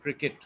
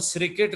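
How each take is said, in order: First: The word begins with a k sound. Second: The word begins with an s sound. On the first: The speaker calls it right. "इसको काफ की आवाज़ से पढ़ रहे हैं" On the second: The speaker calls it wrong. "सीन की आवाज़ से नहीं पढ़ रहे"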